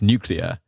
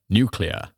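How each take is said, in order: First: It is said with a British accent. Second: It is said with an American accent. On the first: "for English, it's nuclear" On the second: "in American, he's like nuclear"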